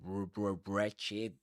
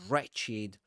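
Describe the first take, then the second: First: The word begins with a w sound. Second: The word begins with an r sound. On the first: The speaker calls it wrong. "You don't say wretched. You don't pronounce the w at the beginning of a word" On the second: The speaker calls it right. "You don't pronounce the w. You say right. You say wretched"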